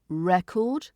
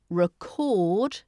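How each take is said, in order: First: The stress is on the first syllable. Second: The stress is on the second syllable. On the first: It is the noun for something that stores information. "stress is on the first syllable" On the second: It is the verb meaning to capture something. "so the stress is on the second syllable, is the verb"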